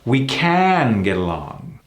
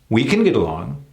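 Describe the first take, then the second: First: 'Can' is stressed with a full 'ah' vowel. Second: 'Can' is unstressed and reduced to 'kin'. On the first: "If you're putting the emphasis on the can, then that's when you have that ah sound" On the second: "if the emphasis is not on that word, then it's reduced into a kin"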